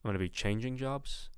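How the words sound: The pitch rises on the second-to-last word. The speaker calls it wrong. "you're kind of going up on the penultimate, on the second to last word"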